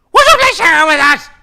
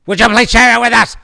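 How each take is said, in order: First: Much higher, louder, fast whiny plea; hammed-up begging. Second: Loud, high, fast plea; mock pleading. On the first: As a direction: beg even harder, over the top. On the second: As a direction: beg the audience playfully. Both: Pleading listeners for mail.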